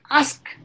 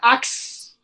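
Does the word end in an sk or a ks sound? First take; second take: sk; ks. First: The word ends with the sounds s then k. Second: The word ends with the sounds k then s. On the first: The speaker calls it right. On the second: The speaker calls it wrong. "not ax"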